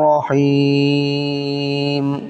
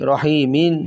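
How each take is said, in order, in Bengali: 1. শব্দটি খালি m ধ্বনি দিয়ে শেষ হয়। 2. শব্দটি m-এর পরে একটি ছোট স্বরধ্বনি দিয়ে শেষ হয়। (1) "অক্ফ হওয়ার কারণে মিমটা সাকিন হয়ে যাবে" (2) "মিমজের মি"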